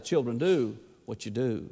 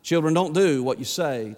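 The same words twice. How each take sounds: First: Second "do" pressed down, much softer; stress on do, hushed. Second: "do" leaned on and falling; stress on do. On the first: Preacher landing the lesson for parents, soft stressed "do". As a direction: let the punchline "do" drop low and quiet. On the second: Preacher reminding parents, firm stress on "do". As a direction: weigh the word "do" as a warning. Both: Shown as a demonstration. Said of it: "And I remind them".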